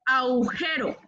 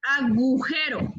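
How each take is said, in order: First: "agujero" as "aujero", no g; "agujero" with a and u run together; mispronounced agujero. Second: "agujero" slowly with a clear g; careful, slow "agujero", g sounded; correct agujero. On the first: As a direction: drop the g from "agujero". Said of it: "No es". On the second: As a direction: model "agujero" as a-gu-jero. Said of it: "es agujero". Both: Shown as a demonstration.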